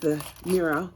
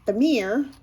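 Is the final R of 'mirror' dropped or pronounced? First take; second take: dropped; pronounced. First: The final R is dropped, ending in 'ah'. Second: The final R is pronounced, American style. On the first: "We don't say our R's. We, we end them in an A H sound" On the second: "I don't mean to poke fun at American accents. It's that's how Nietzsche pronounces mirror"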